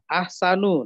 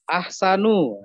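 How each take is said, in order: The two takes are said the same way.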